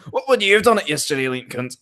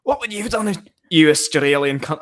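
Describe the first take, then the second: First: Put-on higher, rough stab at an Australian accent; attempted Australian accent. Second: Said in the usual way. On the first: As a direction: have a go at sounding Australian. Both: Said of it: "I need to do it in Australian accent".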